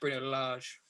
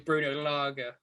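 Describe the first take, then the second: First: The surname has a Portuguese-style pronunciation. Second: The surname has an English-style pronunciation. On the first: The speaker calls it right. "it's been quickly pointed out" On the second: The speaker calls it wrong. "we say Bruno Lage"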